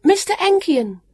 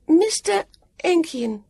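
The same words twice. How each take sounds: First: High, loud call of "Mister Enkian"; brisk high-pitched name call. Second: High, slow echo of "Mister Enkian"; high call with a break between the words; calling back. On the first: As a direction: shout "Mister Enkian" to carry. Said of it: "she called". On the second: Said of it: "Sam called back". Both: A narrator's reading.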